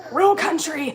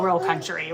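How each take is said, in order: First: Higher-pitched, exaggerated Southern country twang; country accent. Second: Said in the usual way. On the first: Shown as a demonstration. Kat showing viewers how country she gets, exaggerated Southern accent. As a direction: lean hard into an Alabama country accent. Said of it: "Then I'm real, real country, like". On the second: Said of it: "Then I'm real, real country".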